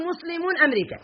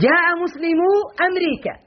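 First: "مسلمون" with the nun kept, said softer as the error; teacher voices "مسلمون أمريكا" as muslimūna amrīkā, the wrong nun kept, dropped in volume; wrong form. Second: "مسلمو" said without the final nun, clear and firm; teacher sounds "مسلمو أمريكا" as muslimū amrīkā, no n; correct form. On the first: Teacher showing students the incorrect form, softer, nun kept. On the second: Teacher showing students the correct dropped nun, clearly pronounced. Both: Shown as a demonstration. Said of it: "ولا يصح أن نقول".

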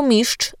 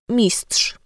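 First: "mistrz" with trz merged into one cz-like sound; simplified ending. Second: Said in the usual way. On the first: Shown as a demonstration. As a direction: say "mistrz" as "miszcz". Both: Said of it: "albo mistrz zamiast".

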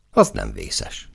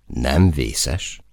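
First: Low, slow statement of relief; relieved. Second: Rising, disbelieving echo; incredulous question. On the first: Soldier hears the outside conditions, mildly relieved. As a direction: settle into it, relieved. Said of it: "megkönnyebbülten". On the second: Comrade challenges the man's relief, incredulous. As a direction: question his words in disbelief. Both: A narrator's reading.

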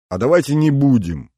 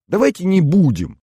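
First: Eager first outcry; exclaiming. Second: High, loud eager exclamation; восторженно воскликнула; exclaiming. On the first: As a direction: call it out to friends. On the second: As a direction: burst out with it, pleading. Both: Acted. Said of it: "воскликнула Маша".

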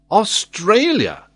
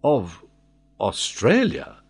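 First: Loud, high, drawn-out exclamation; vehement. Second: Hesitant, puzzled echo; taken-aback repeat. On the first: Glenarvan disconcerting the old sailor, vehement. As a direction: burst out with full conviction. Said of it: "with such vehemence that the old sailor was somewhat disconcerted". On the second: Old sailor disconcerted by his master, bewildered echo. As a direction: repeat it haltingly, wide-eyed. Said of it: "repeated Tom, opening his eyes". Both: A narrator's reading.

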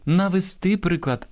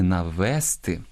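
First: Навести stressed on the final -ТИ, high and slow; correct stress. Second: Навести stressed on the middle -ВЕС-; wrong stress. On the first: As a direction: hit the last syllable of навести. (наголос на останньому складі: навести) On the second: (наголос на другому складі: навести) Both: Shown as a demonstration. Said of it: "а не навести".

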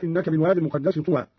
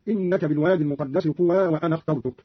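First: Said in the usual way. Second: "طوى" as tuwaa, run straight into "وأنا"; unnasalized "طوى" joined to the next word; no tanween. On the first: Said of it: "عند وصل طوى بما بعدها". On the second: Shown as a demonstration. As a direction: link "طوى" onward with an open a and no n. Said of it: "قرأ قالون عند وصل طوى بما بعدها بعدم التنوين".

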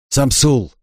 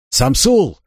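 First: Said in the usual way. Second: Cover me shout. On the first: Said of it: "asks where they are". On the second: A narrator's reading. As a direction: shout the name across. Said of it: "крикнул он".

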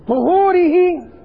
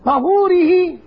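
First: "طهوره" as tu-HOO-ri-hi, high and drawn out; slow "طهوره" with rounded tu-; damma on the first letter. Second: "طهوره" as ta-HOO-ri-hi, high-pitched; fatha on the first letter. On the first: Teacher naming the way of purifying, damma on the first letter. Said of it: "الطريقة التي تطهر بها". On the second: Teacher naming the water for purifying, fatha on the first letter. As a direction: open ta- opening "طهوره". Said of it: "الماء الذي تطهر به". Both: Shown as a demonstration.

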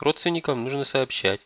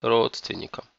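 First: Higher-voiced daughter's reminder; raised-pitch, earnest appeal; earnest insistence. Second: Bitter echo of the word; pained, rueful single word. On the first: Daughter insists, mother echoes it bitterly. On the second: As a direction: repeat it with sour resignation. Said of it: "с горечью в голосе произнесла". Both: A narrator's reading.

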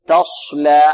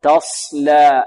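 First: "تصلى" with lips pursed on the s; over-darken the s of "تصلى" by rounding the lips; "تصلى", sad hooded toward sh; rounded-lip sad. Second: "تصلى" with a heavy s made by the tongue; slow "تصلى", long clean dark s, light "laa"; sad without rounding. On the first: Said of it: "يريد يفخم الصاد يقول". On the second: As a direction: keep lips unrounded on the s of "تصلى". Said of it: "ارتفاع أقصى اللسان، هذا التفخيم". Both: Shown as a demonstration.

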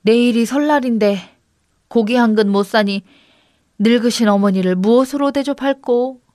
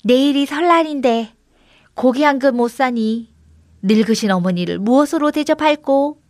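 First: Lightly performed lament; mildly woeful recitation; prompting the goat. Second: Slightly higher goat echo; lightly voiced mimicking goat; talking goat. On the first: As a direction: recite the woe for a goat to copy. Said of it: "염소를 앞에 놓고 말했습니다". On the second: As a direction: repeat the lament as a little goat. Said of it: "염소가 입을 나불거렸습니다". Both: A narrator's reading.

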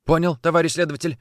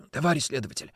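First: Said in the usual way. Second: Hoarse whisper into the receiver; husky, hushed phone voice. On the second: Acted. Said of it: "прошептал в трубку хриплый голос". (хриплый шёпот в трубку)

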